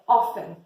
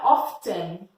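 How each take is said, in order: First: The T sound is silent in the middle. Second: The T sound is pronounced in the middle. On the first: The speaker calls it right. "Esse T nessa palavra, ele é mudo" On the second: The speaker calls it wrong. "não é often"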